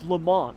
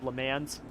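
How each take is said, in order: First: The name is said the French way. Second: The name is said the English way. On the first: The speaker calls it right. "They're like, it's Le Mans. I'm like, I'm not French" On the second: The speaker calls it wrong. "I used to call it"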